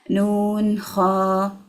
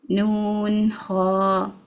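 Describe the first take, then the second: The two takes are said the same way.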